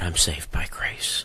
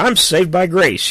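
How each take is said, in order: First: The phrase is said quietly, without force. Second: The phrase is said loudly, like a shout. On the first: Grace is treated as less important than sin. The speaker calls it wrong. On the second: Grace is celebrated as the main point. The speaker calls it right.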